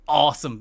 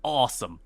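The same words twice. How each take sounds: First: "Awesome." said louder and punched; emphatic awesome. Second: Said in the usual way. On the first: Real, not acted. Host summing up the feud, louder emphatic "Awesome.". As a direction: hit "Awesome." hard the second time.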